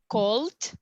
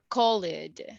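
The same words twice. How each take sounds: First: The ending is a short t sound. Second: The ending is an extra id syllable.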